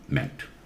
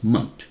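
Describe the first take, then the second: First: The vowel is a clear eh sound. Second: The vowel is a reduced uh sound. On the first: It is the American pronunciation. "American English, you hear meant" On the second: It is the British pronunciation. "in British English is pronounced as munt"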